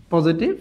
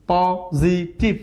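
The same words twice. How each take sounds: First: Said in the usual way. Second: positive slowly in three separate beats; syllable by syllable. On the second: Shown as a demonstration. Teacher counting three syllables, slowly broken up. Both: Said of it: "ট্রাইসিলেবল".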